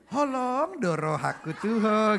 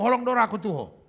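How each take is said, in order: First: Slow, stretched "Holong doro haku tuho"; over-sweetened. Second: Quick, firm "Holong doro haku tuho"; plain Batak tone. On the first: Comic showing the tone Bataks can't use, slow and sweet. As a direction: draw every vowel out syrupy. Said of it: "nggak bisa di". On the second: Comic showing the real Batak tone, brisk and firm. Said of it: "nadanya memang gitu". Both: Shown as a demonstration.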